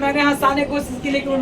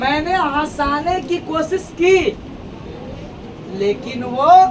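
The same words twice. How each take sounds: First: It is said continuously without a pause. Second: There is a short pause before 'लेकिन'. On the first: The speaker calls it wrong. "ऐसा ना बोला ... लगातार नहीं बोलेगा" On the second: The speaker calls it right. "थोड़ा सा क्या लेगा ब्रेक"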